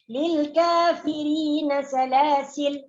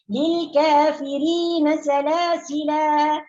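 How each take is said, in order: First: The last word ends on a bare l sound. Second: The last word ends in a lengthened vowel. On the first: "Atau disukunkan lamnya"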